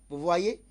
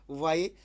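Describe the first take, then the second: No difference in how they are said.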